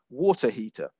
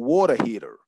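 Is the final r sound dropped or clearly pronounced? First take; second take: dropped; pronounced. First: A British accent with the final r dropped. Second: An American accent with a strong r sound. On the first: "from the U K, I would pronounce this as a water heater. Okay, so you're not hearing that r sound at the end" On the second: "if you were from the United States... that's my best uh, American accent... a stronger r sound"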